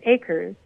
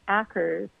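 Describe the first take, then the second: First: The name sounds like the word 'acres'. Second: The name does not sound like 'acres'. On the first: The speaker calls it right. "Like green acres" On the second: The speaker calls it wrong. "Everybody pronounces it wrong"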